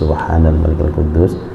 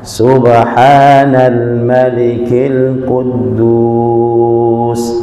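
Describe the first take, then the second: First: It is said at normal volume and length. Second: It is said louder, with drawn-out vowels. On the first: "Kalau pertama" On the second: "yang ketiga ... diangkat suaranya"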